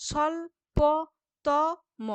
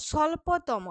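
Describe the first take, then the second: First: স্বল্পতম drawn out very slowly, স্বল্-প-তম; syllable by syllable. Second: Said in the usual way. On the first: Shown as a demonstration. Teacher breaking স্বল্পতম into syllables for students, slow. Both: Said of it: "এরকম করে বলছি তো".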